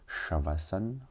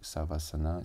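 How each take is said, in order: First: The word begins with an 'sh' sound. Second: The word begins with an 's' sound. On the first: "si on le prononce bien" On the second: "si on prononce plus euh, à, à l'européenne, à l'occidentale"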